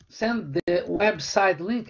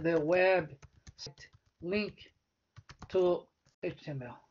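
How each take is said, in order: First: Said in the usual way. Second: Slow dictation. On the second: Shown as a demonstration. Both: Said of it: "né?".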